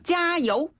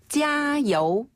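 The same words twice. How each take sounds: First: It is said with more force and energy. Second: It is said in a calm, plain way.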